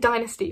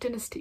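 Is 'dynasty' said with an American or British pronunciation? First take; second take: American; British. First: The word has an American pronunciation. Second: The word has a British pronunciation. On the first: "I should say dynasty" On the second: "I pronounce it dynasty because I'm I'm British"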